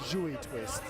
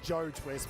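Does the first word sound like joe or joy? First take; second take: joy; joe. First: The first word sounds like joy. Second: The first word sounds like joe. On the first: This is how the name is actually said. The speaker calls it right. "but it's pronounced joy twist" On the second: This is how the written name looks. The speaker calls it wrong. "If you read it, it just reads like Joe Twist"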